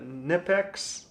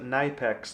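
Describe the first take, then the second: First: The first vowel is short, as in 'nip'. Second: The first vowel is long, as in 'knife'. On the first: "How I normally say it?" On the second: "like knife"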